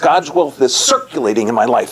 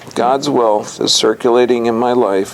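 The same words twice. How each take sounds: First: It is read with lively, enthusiastic energy. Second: It is read flatly, with low sleepy energy. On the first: The speaker calls it right. "imagine if you said it with enthusiasm" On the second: The speaker calls it wrong. "sorry, I was sleeping there"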